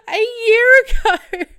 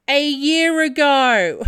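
First: Very high, loud laughing repeat; real laughing shriek; laughing cry. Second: Loud slow blunt answer; loud slow blunt reply; loud quote. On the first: Real, not acted. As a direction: break into laughing disbelief. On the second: Retold or imitated. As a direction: say it flat out and loud. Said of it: "To which she responds".

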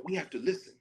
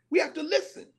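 First: A slight parody of "We have to listen"; quoting Jon Stewart. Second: "We have to listen" said higher and firmly, stress on "We"; mean it: "We have to listen"; earnest call to listen. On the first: Retold or imitated. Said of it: "And then he made fun of it". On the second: Acted. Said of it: "he made fun of it".

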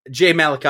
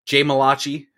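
First: Malachi said as "MAL-uh-kye"; Malachi stressed up front, ending in "kye"; alternate pronunciation. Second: Malachi said as "muh-LAH-chee"; Malachi rhyming with "hibachi"; announcer's pronunciation. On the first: Real, not acted. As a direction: say Malachi with a hard k and "eye" ending. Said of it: "I don't know what it is". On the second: Retold or imitated. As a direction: say Malachi with a "chee" ending, stressed in the middle. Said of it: "she pronounced it as Malachi this time".

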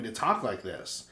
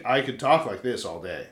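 First: Said in the usual way. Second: Lower-pitched talking voice; usual deeper voice. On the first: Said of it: "this voice I'm talking in now is pretty". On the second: Shown as a demonstration. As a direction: drop into a low, relaxed register. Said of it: "'cause usually I c".

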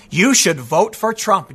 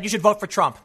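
First: Slow mocking repeat. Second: Said in the usual way. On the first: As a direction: drag out "You should vote for Trump" slowly, a bit louder, mocking. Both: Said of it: "He said it twice".

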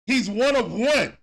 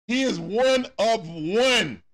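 First: Said in the usual way. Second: "one of one" slowed, each word weighted; slow emphatic stress. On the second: Shown as a demonstration. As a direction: drag out "He is one of one" deliberately.

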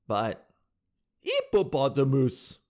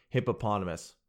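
First: Put-on slow French-accented "hippopotamus". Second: Said in the usual way. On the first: Host teases the French girl's attempt, French accent. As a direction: drop the H and stretch it, French-accented. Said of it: "French girl trying to do an American accent".

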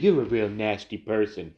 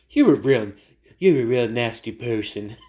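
First: Said in the usual way. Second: Louder, half-hearted mock impression of a famous politician; a hint of the president, said louder than usual; Trump voice. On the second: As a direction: throw out the insult in a loud, rough-edged put-on voice. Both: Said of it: "I can't do the Trump voice".

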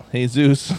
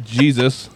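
First: Jesus as "hay-ZOOS", drawn out; Jesus with an H sound, stretched; Spanish pronunciation. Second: Jesus with an English J, "JEE-zus"; Jesus starting on a hard J; English pronunciation. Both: Shown as a demonstration. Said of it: "there's no J sound".

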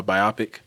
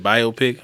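First: Biopic said bye-OP-ick; biopic stressed on the middle syllable; bi-OP-ic pronunciation. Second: Biopic said BYE-oh-pick; biopic stressed on the first syllable; bio-pic pronunciation. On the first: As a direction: say biopic to rhyme with myopic. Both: Shown as a demonstration. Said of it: "is it biopic or biopic?".

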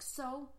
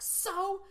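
First: Said in the usual way. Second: A sharp, high "So?" with a lifted voice; emphatic "So?". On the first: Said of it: "And this woman's like". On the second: Retold or imitated. Retelling a movie scene, Diane Lane's emphatic high "So?". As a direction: fire back "So?" high and louder. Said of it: "Diane Lane emphatically was like".

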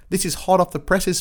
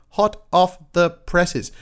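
First: Said in the usual way. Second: Slow, each word pressed; slow emphasis. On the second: Real, not acted. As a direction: lean hard on "Hot off the presses". Repeated for emphasis.

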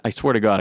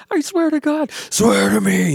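First: Said in the usual way. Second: Raspy Batman growl, pitched way up; rough, strained Batman impression. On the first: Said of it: "I can do that". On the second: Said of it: "he does that whole thing".

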